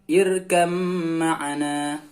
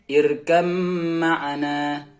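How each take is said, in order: Both takes have the same delivery.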